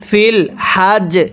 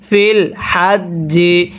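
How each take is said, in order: First: The last word ends with a consonant sound. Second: The last word ends with a vowel sound. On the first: The reader stops at this point. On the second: The reading continues without stopping.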